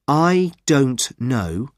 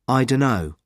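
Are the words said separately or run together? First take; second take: separately; run together. First: Each word is said fully and separately. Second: The words are reduced and run together.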